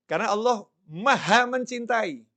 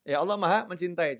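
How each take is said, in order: First: "maha" stressed, said higher and louder; emphatic declaration. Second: Said in the usual way. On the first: Shown as a demonstration. Preacher stressing God's love to his congregation, emphatic. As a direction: proclaim "maha mencintai" with force.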